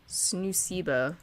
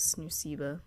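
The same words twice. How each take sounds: First: Snoosiba drawn out slowly, syllable by syllable; sounded out slowly. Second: Said in the usual way. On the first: Shown as a demonstration. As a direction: spell out Snoosiba slowly as a new name. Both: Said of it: "let's go with Snoosiba".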